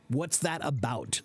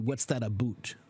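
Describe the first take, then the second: First: It is said in an American accent. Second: It is said in a Canadian accent. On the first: "That's how an American would say it" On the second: "the Canadian version is closer to"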